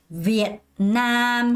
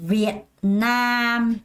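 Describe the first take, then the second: Both takes have the same delivery.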